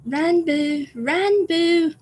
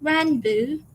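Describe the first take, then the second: First: Put-on high, drawn-out British-accented call; Tubbo impression. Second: Put-on higher, tentative British accent call; Tubbo impression attempt. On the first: Trying to say it like Tubbo, British accent call. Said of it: "do it in a British accent". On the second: Trying to say it like Tubbo, rough British accent. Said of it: "I'll try my best".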